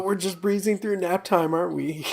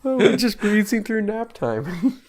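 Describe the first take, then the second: First: High, lightly voiced sitcom quote; a hint of Buster; quoting Buster. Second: High, slow, laughing quote; sing-song Buster yawning line; Buster impression. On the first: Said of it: "That's a line from Arrested Development". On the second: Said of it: "Where Buster's yawning in the conference room".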